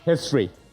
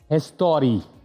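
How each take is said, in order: First: It is said as plain English 'history'. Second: It is said with an added vowel, 'histori'.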